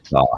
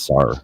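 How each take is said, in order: First: The word ends with no R sound. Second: The word ends with an added R sound. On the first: "instead of "saw"" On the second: "like "saw" with an R on it"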